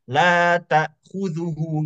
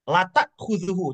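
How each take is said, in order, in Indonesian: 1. Vokal 'la' itu panjang. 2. Vokal 'la' itu pendek. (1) "yang aslinya yang sebetulnya" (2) "kalau la-nya dibaca pendek"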